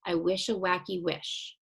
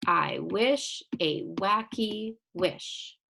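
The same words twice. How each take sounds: First: Said in the usual way. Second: Slow, evenly separated beats on "I wish a wacky wish"; syllable by syllable. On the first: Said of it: "let's go back to this first one". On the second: Shown as a demonstration. Teacher taps out syllables for pupils, "I wish a wacky wish" slow and separated. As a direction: tap out "wacky" as two slow beats, each word set apart. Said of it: "tap out each syllable".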